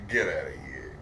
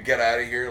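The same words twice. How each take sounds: First: It is said playfully and teasingly. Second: It is said harshly and angrily.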